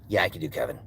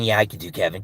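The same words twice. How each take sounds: First: Much lower and softer, gravelly; Kevin voice. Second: Lower, softer, a touch of gravel; lightly voiced Kevin. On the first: Acted. Repeating the answer deeper as Kevin. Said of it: "on the lower end". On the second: Answering chat in a low Kevin voice. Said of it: "can I do Kevin".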